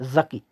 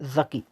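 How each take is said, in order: First: The word begins with a 'z' sound. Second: The same.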